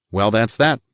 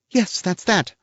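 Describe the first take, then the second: First: Said in the usual way. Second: The lady's bright, higher reply; woman's voice, much higher; voiced woman. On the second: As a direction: echo it pitched up as the lady. Woman figure answers.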